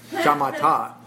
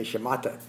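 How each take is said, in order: First: Shamatha said carefully with all open ah vowels, sha-MA-tha; shamatha, hitting the ma and landing a touch higher and louder; proper pronunciation. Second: Shamatha said the way he always says it, stress not on ma; his habitual shamatha with no stress on the ma syllable; his usual way. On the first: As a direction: give shamatha its textbook sha-MA-tha form. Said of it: "And the proper pronunciation is shama". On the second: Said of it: "when I say shamatha vipassana, I say shamatha". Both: Shown as a demonstration.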